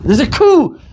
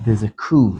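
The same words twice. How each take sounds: First: High, loud alarm; sudden high alarmed shout; alarmed cry. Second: Said in the usual way. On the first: Retold or imitated. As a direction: cry out the danger. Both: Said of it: "She says".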